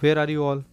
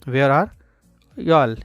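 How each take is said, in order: First: 'You all' is said as two full words. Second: 'You all' is squeezed into one syllable.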